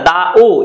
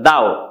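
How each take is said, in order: First: The o is a separate full vowel syllable. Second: The o is a short glide after da. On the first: The speaker calls it wrong. "ওটা দা ও এরম ভাবে উচ্চারণ হচ্ছে না" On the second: The speaker calls it right. "অর্ধভাবে উচ্চারণ হচ্ছে"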